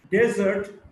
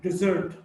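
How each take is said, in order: First: "desert" as DEZ-ert; stress on first syllable. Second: "desert" as di-ZERT; weak start, strong ZERT in "desert"; stress on second syllable. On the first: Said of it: "stressed in the first syllable". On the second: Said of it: "stressed in the second syllable". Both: Shown as a demonstration.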